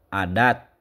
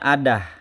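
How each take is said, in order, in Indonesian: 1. Kata itu berakhir dengan bunyi t. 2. Kata itu berakhir dengan bunyi h. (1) "dibacanya te" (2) "harusnya adah karena tak marbutoh"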